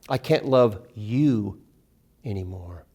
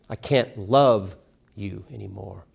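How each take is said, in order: First: The stress is on you. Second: The stress is on love.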